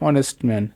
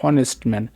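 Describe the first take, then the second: The two takes are said the same way.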